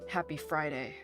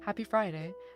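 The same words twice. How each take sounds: First: It sounds mad and grumpy. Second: It sounds happy, with a grin.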